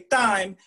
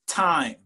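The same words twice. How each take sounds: First: The T is soft, without a puff of air. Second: The T is spat out with a puff of air. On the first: The speaker calls it wrong. "If you say time, you have an accent" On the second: The speaker calls it right. "you have to spit a little t"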